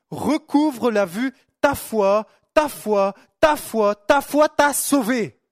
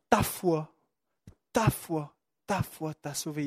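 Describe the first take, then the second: First: Slow, loud, hammering "ta foi" again and again; loud, slow preaching of "ta foi t'a sauvé", pounding "ta foi"; forceful proclamation. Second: Softer, lower "ta foi, ta foi, ta foi t'a sauvé", said tenderly; soft, low and tender "ta foi t'a sauvé", almost hushed; gentle quiet declaration. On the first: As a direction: proclaim each "ta foi" like a hammer blow, slowly. Preacher proclaims Jesus' words forcefully. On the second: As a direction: let "ta foi" fall quietly, like a kind word to one man. Jesus' words retold tenderly. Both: Acted.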